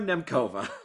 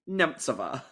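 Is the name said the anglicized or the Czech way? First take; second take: anglicized; Czech. First: The name is said in an anglicized way. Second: The name is said in a Czech way. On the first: This is how the name is said on the show. "all over the show, she's just Petra Nemcova" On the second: This is the native pronunciation found online. "what the internet tells me is the Czech pronunciation"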